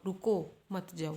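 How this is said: There is a pause after the first word. Stop; do not go. "एक आ गया रुको के बाद कोमा मत जाओ"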